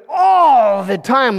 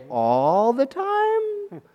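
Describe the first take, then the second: First: "all" hugely stretched in "all the time"; emphatic assurance. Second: Very slow, softer, rising disbelief on "All the time"; incredulous question. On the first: Advisor recommending a perfect king, emphatic "all the time". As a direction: draw out "all" as a sure claim. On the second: Little king echoing his advisor's claim, incredulous. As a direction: stretch "All the time" upward, doubting. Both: Acted.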